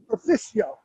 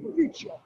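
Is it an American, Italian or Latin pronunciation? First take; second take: American; Italian. First: It is said with an American pronunciation. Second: It is said with an Italian pronunciation.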